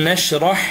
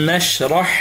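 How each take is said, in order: No difference in how they are said.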